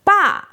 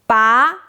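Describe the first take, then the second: First: The syllable is said with a falling tone. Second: The syllable is said with a rising tone. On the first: It means father. "Fourth tone, 爸 means daddy or father" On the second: It means pull. "Second tone, 把 means pull"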